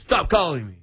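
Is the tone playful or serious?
serious. It sounds serious, really meaning it.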